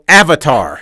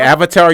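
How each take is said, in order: First: It is yelled with a falling statement tone. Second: It rises at the end like a question.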